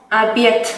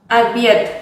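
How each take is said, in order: No difference in how they are said.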